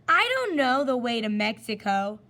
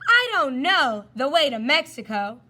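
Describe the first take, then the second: First: The line is said without much force or loudness. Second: The line is screamed loudly with great force. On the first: The speaker calls it wrong. "I didn't scream very well" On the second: The speaker calls it right. "I want to scream like Mongo screams"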